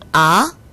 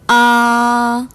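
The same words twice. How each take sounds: First: The pitch climbs quickly from low to high. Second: The pitch stays high, long and flat. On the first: "올라가는 성조 제이 성" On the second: "높고 길고 평평하게 발음하는 일 성"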